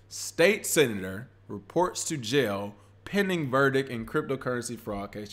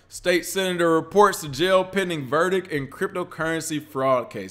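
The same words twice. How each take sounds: First: It is read more slowly. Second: It is read at a normal pace.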